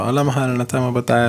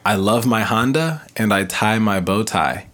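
First: The phrase is said very fast. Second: The phrase is said at a normal pace.

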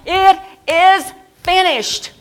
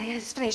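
First: It is said loudly and triumphantly. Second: It is said quietly and weakly.

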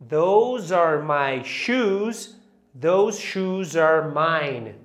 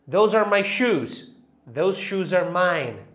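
First: It is said at a normal pace. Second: It is said quickly.

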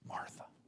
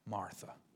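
First: The name is said softly and gently. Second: The name is said softly and gently.

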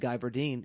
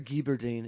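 First: The name is said with an English accent. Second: The name is said with a French accent.

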